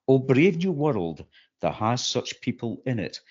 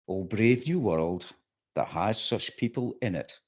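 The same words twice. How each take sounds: First: It sounds full of awe and admiration. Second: It sounds flat, with little awe or admiration. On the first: The speaker is genuinely amazed by the world. "Miranda said that in awe and admiration" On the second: The speaker is disillusioned by recent events. "I say it with a lot less awe and admiration"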